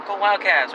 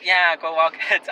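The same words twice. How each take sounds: First: Bright upbeat school cheer, pitched up; enthusiastic cheer. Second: Reluctant, dragged-out reply, slow; unenthusiastic. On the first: Lady at the drive-through cheering at the school shirt, enthusiastic. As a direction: cheer it like a fan at the gate. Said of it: "All enthusiastic". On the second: Awkward teen answering the lady's cheer, least enthusiastic. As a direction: force out a half-hearted cheer. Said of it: "the least enthusiastic thing". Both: Retold or imitated.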